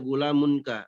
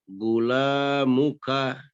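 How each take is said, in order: First: It is said with an n before ka. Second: It is said with no n before ka. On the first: The speaker calls it wrong. "Nggak boleh lagi untuk baca gula munka" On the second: The speaker calls it right. "Tapi dibaca gula muka"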